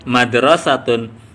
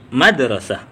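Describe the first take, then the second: First: The word ends with the full -tun ending. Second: The word stops short, ending in an h sound.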